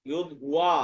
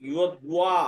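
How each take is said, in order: No difference in how they are said.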